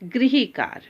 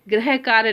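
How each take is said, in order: First: The first syllable is said as 'grih'. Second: The first syllable is said as 'grah'. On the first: The speaker calls it right. "उच्चारण में री आना जरूरी है" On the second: The speaker calls it wrong. "गृह कार्य नहीं बोलेंगे"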